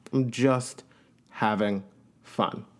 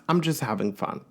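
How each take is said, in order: First: Slow, spaced words trailing away quieter; slowing and fading to near silence; drawn-out, fading. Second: Said in the usual way. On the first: Shown as a demonstration. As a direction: let each word drop off. Repeats phrase, then draws it out.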